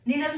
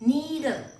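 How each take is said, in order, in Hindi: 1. पहला स्वर छोटा है। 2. पहला स्वर लंबा है। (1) "निडल नहीं" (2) "इलोंगेट करना है"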